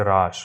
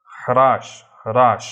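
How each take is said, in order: First: হ্রাস said "raash", silent h; Bengali pronunciation. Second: হ্রাস said loud as "hraash", h sounded; Hindi pronunciation. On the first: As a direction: leave the h off হ্রাস, starting on r. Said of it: "বাংলাতে হর উচ্চারণ হয় না". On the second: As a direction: start হ্রাস with a strong h before r. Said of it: "হিন্দিতে হর উচ্চারণ হবে". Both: Shown as a demonstration.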